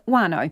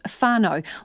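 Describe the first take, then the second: First: The word begins with a plain W sound. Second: The word begins with a breathy F-like sound.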